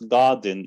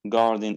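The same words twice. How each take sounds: First: It is said in a British accent. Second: It is said in an American accent. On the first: "It's garden in British" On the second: "garden in American"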